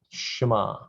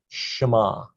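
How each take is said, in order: No difference in how they are said.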